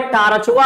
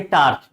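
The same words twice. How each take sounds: First: टार्चवा said with a rustic -वा ending tacked onto torch; joking dialect torchwa. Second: टार्च said plainly with no -वा ending; corrected plain torch. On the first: Teacher jokes to students with a rustic टार्चवा. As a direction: say टार्चवा like a village Bhojpuri speaker would. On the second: Teacher corrects himself, saying टार्च plainly. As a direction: clean standard टार्च. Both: Shown as a demonstration. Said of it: "टार्चवा नहीं, टार्च".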